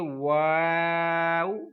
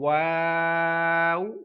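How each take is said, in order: No difference in how they are said.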